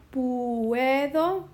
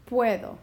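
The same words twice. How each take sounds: First: Puedo with u and e apart, pu-e-do; split puedo. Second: Puedo with ue glided, pue-do; joined puedo. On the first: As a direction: break puedo as pu-e-do. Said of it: "decide if I want puedo". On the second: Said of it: "I wanna keep them together". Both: Shown as a demonstration.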